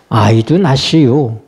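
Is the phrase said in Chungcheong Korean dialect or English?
Chungcheong dialect. It is said in Chungcheong Korean dialect. I had a baby too. "충청도 방언으로 하면"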